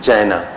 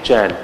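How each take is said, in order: First: The word ends with an added final vowel. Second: The word ends on a consonant, no final vowel. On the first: The speaker calls it wrong. "we always pronunciated Jaina" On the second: The speaker calls it right. "So we must pronunciate Jan"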